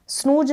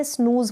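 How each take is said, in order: First: स्नूज pronounced "snooj", final j; wrong j sound. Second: स्नूज pronounced "snooz", final z; correct z sound. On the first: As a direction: end स्नूज with a j, not z. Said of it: "स्नूज ना पढ़ें". (स्नूज के अंत में ज बोलें) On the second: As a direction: end स्नूज with a clear z. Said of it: "स्नूज पढ़ें". (स्नूज के अंत में ज़ बोलें) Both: Shown as a demonstration.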